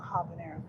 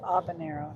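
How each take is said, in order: First: The word begins with an audible H sound. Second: The word begins with no H sound. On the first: The speaker calls it wrong. "not habanero" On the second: The speaker calls it right. "the H is silent. It's habanero"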